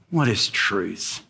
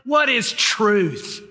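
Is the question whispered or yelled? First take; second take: whispered; yelled. First: The question is whispered softly. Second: The question is yelled loudly. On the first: "Did he whisper it? Sort of as a frustrated man dealing with so much" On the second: "Did he yell it?"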